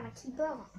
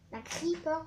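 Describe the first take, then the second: First: "creeper" said French-style as kipeur; the French way of saying "creeper" that he waves off; rejected pronunciation. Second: "creeper" said the English way, creepor with a rolled r; corrected pronunciation. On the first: Gamer showing viewers the wrong way, French "creeper". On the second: Gamer correcting his own word to viewers, English-style "creeper". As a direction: say "creeper" like the English word, not the French kipeur. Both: Shown as a demonstration. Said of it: "pas d'un creeper".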